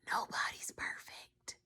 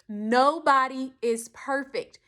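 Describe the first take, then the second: First: It is said quietly, like a secret. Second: It is said loudly, like an announcement. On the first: It is shared privately as a secret. "I'm going to tell you a secret. Come close" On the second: It is announced for everyone to hear. "Let me say it louder so everyone can hear"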